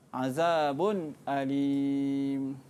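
A clear glottal stop begins the second word. "khalaf baca dengan tahqiq"

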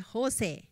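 The name is said like a Chinese dialect phrase. "they say Jose. Jose means it's really good"

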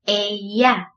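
The double L sounds like a 'y'. "L에 두 개가 있으면 Y 발음이 나죠?"

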